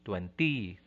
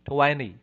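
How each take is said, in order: First: The stress is on the last syllable. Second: The stress is on the first syllable. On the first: The speaker calls it wrong. "many are putting the stress on the ty endings" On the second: The speaker calls it right. "So it's on the first syllable"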